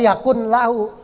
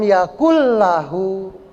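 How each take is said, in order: First: A separate n is heard before lahu. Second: The n merges into the following l sound. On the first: The speaker calls it wrong. "nggak boleh yakun lahu" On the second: The speaker calls it right. "nunnya masuk ke lam"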